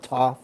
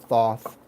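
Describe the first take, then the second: First: The name begins with a plain t sound. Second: The name begins with a th sound.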